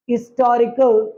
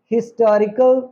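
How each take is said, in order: First: Historical as "istorical", no H; outdated silent H. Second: हिस्टोरिकल with an audible H at the start; modern sounded H. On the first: Teacher showing what is no longer said: slow "istorical" without H. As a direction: begin इस्टोरिकल slowly on the vowel. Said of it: "नहीं pronounce करते". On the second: Teacher contrasting with the old way: हिस्टोरिकल with H sounded. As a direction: keep the H in हिस्टोरिकल. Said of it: "pronounce करते हैं". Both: Shown as a demonstration.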